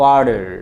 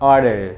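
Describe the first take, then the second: First: It is said with an American accent, d-like t. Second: It is said with an American accent, d-like t.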